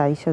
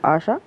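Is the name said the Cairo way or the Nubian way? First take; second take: Cairo; Nubian. First: The name is said in the Cairo way. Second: The name is said in the Nubian way. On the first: "زي ما احنا بننطقه" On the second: "بينطقوه عشا"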